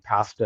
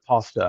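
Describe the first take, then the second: First: The word is said the Canadian way. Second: The word is said the American way. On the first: "caught me saying pasta" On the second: "instead of pasta"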